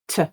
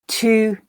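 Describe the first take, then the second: First: The vowel is reduced to a schwa. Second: The vowel is full and unreduced. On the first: "the weak form" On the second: "the full form"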